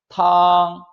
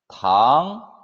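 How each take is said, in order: First: The pitch stays high and level. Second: The pitch rises from mid to high. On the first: It means soup. "일성" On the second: It means sugar or candy. "이성"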